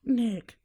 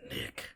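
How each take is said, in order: First: High-pitched mock reply. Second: Whispered. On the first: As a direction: answer "Nick" in a high, bright repeat. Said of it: "she said". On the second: Acted. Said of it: "he said".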